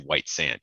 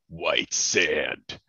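First: The title is said in a flat, ordinary voice. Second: The title is said in a grand, dramatic voice. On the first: The speaker calls it wrong. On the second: The speaker calls it right. "I say it like that because it's meant to be kind of a very epic thing"

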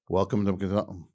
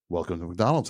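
First: It sounds bored, like wanting to go home. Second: It sounds eager and upbeat, not bored.

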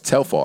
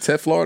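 First: The l sound comes before the f sound. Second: The l sound comes after the f sound. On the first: The speaker calls it right. "it's Telfar" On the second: The speaker calls it wrong. "Is it Teflar? No"

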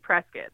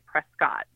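First: The second syllable rhymes with the end of biscuit. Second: The second syllable sounds like the word cot. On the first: The speaker is a local. "If you're from here, if you're from Prescott, you say Prescott" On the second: The speaker is an outsider. "It's only the outsiders that say Prescott"

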